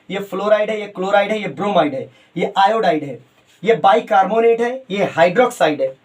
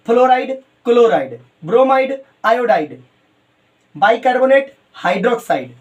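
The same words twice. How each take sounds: First: Said in the usual way. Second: Each term alone, with a gap after it; unhurried dictation. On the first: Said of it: "मैं तेज नहीं बोल रहा हूँ". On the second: Real, not acted. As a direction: dictate a word list at note-taking speed. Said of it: "धीरे से आराम करके note करो".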